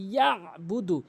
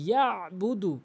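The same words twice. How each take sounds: First: The throat consonant ain is clearly pronounced. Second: The throat consonant ain is clearly pronounced.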